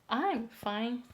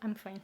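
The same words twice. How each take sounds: First: Each syllable gets an even, separate beat. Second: The syllables run together quickly with momentum. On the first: The speaker calls it wrong. "the rhythm is same. It doesn't have the momentum" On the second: The speaker calls it right. "It becomes like, oh, I'm fine, thank you"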